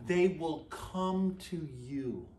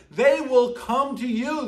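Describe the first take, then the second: First: Slow, soft and hushed; hushed awe. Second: Higher, eager and punchy; emphatic excitement. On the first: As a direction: let the verse sink in quietly. Repeating the verse softly. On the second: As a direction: proclaim it with delight. Verse restated with emphasis. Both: Acted.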